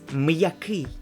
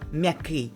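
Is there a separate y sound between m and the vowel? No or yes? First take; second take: yes; no. First: A separate y sound follows the m before the vowel. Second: The m blends straight into the vowel, no y sound. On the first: The speaker calls it right. "it's м'який" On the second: The speaker calls it wrong. "It's not м'який"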